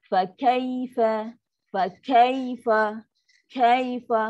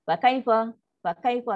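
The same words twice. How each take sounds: First: "kaifa" drawn out slowly, voice dipping; slow sinking recitation. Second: "kaifa" quick and hard, cut short; clipped harsh recitation. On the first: Teacher models the correct slow "Fa kaifa". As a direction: stretch "kaifa" and let it sink. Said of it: "Macam ni". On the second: Teacher demos the harsh cut-off "fa kaifa". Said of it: "Bunyi dia keras". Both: Shown as a demonstration.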